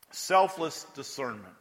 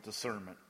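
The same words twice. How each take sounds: First: "Selfless" hit hard, slowed down; stress on selfless. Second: Said in the usual way. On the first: Shown as a demonstration. Preacher correcting himself, stressing "Selfless" slowly. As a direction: lean into "Selfless" before "discernment.".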